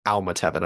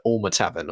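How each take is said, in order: First: "Alma" said with a short "a" as in "Al"; alternative pronunciation. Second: "Alma" said with an "awl" first syllable, like ALL-ma; unsure pronunciation. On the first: Offering another guess at the pub's name, "Alma" as "AL-muh". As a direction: say "Alma" as "AL-muh", open first vowel. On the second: Naming tomorrow's pub, unsure how to pronounce it, "Alma" as "AWL-muh". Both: Shown as a demonstration. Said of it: "I'm not sure you pronounce it".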